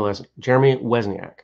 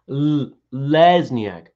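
First: The first sound is a W-like sound. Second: The first sound is a clear L. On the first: The speaker calls it wrong. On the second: The speaker calls it right.

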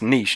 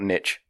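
First: The word rhymes with quiche. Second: The word does not rhyme with quiche. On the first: The speaker calls it right. "it's niche" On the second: The speaker calls it wrong. "not niche. Everyone in America pronounces it niche"

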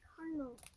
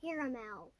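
First: The word is said with two syllables. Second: The word is said with three syllables. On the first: "You're just ignoring that second A in there?" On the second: "I'm not pronouncing it caramel"

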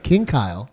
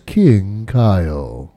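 First: It is said in an ordinary speaking voice. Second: It is said in a put-on, mysterious voice. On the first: "for people that listen to normal voices" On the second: "I thought I'd do a cool cryptic"

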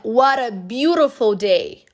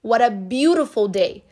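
First: It is said in an American accent. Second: The same.

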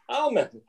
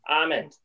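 First: The L sound is clearly pronounced. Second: The L sound is silent. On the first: "Callum always says almond ... put the L in" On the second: "generally, I would say almond"

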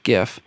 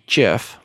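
First: The word starts with a hard g sound. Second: The word starts with a soft j sound. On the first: The speaker calls it right. "So I'm sticking with gif" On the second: The speaker calls it wrong. "like the peanut butter"

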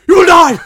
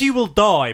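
First: It is said loudly and dramatically. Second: It is said plainly, without drama.

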